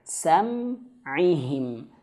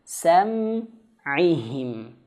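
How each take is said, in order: No difference in how they are said.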